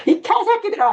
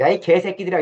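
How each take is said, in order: First: Very high-pitched angry yell; furious cursing. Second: Said in the usual way. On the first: Retold or imitated. Lecturer re-enacts Jesus cursing the rulers, furious high yell. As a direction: let the insult rip at a screaming pitch. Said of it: "심각하게 욕을 해요".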